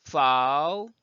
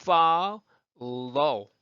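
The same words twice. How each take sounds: First: "follow" cut to its first half, like "fa-ul"; dark L half isolated. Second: "Follow" slowly in two parts, "fal... llo"; both L sounds separated. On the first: Teacher isolating the first L for learners, "follow" sounded as a dark "fa-ul". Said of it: "근데 앞에 붙은 foul". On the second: Teacher showing learners both Ls, "Follow" broken into two drawn-out syllables. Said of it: "dark L, 그 clear L 두 개 다". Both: Shown as a demonstration.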